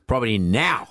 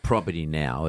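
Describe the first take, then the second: First: The word now is punchy and exclaimed. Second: The word now is dropped and flat. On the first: It conveys urgency, wanting it done now. The speaker calls it right. "we need an exclamation mark after the word now" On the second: It sounds boring and lacks urgency. The speaker calls it wrong. "If you drop the now in terms of tone, it can sound a bit boring"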